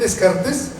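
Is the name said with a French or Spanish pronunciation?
Spanish. The name is said with Spanish pronunciation. "un señor que se llama René Descartes"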